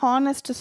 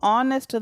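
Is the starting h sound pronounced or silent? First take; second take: pronounced; silent. First: The word begins with an h sound. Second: The word begins with a vowel sound. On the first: The speaker calls it wrong. "ஹானஸ்ட் சொல்லக்கூடாது" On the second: The speaker calls it right. "ஆனஸ்ட் தான் சொல்லணும்"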